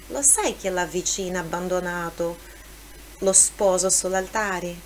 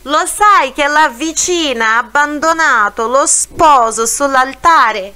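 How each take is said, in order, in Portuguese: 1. A frase é dita em volume normal. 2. A frase é dita em volume mais alto.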